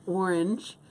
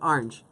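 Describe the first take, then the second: First: It begins with an 'or' sound, carefully said. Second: It begins with an 'ar' sound, as 'arnge'. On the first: This is a careful, effortful pronunciation. "I have to work really hard with my mouth to say orange" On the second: This is the speaker's natural childhood pronunciation. "A R N G E"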